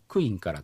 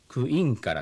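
First: The accent falls on the first syllable. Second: The accent falls on the second syllable. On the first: This is how the Saru dialect says it. "サル方言の場合はアクセントが移動しちゃってですね、クの上に来ちゃうと" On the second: This is how most other dialects say it. "インのところにアクセントが、来る方言が多いんですけど"

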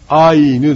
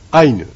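First: The final i is pronounced as a full vowel. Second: The final i is pronounced lightly, like y. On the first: The speaker calls it wrong. "アイヌではなくて" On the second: The speaker calls it right. "これは軽く発音いたします"

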